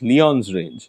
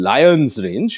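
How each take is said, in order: First: The name begins with a 'lee' sound. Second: The name begins with a 'lie' sound. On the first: This follows the surname the street is named after. The speaker calls it right. "আসল উচ্চারণ হওয়া উচিত" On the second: This is how most people say it. The speaker calls it wrong. "যেটাকে সবাই বলে"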